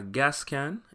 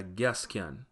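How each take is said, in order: First: Said in the usual way. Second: "gas can" said as gyas kyan with Y glides after g and k; Patois gyas kyan. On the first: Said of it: "would be a gas can". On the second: Shown as a demonstration. Teacher contrasting the Jamaican "gas can" with the North American one. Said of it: "in Patois".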